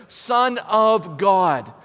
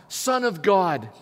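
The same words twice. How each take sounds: First: Each word drawn out slowly and leaned on; slow emphatic call. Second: Said in the usual way. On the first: Shown as a demonstration. Preacher leading the church in the words, slow and emphatic. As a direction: lead the church in saying it, slowly and loudly. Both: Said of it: "Say it with me, church".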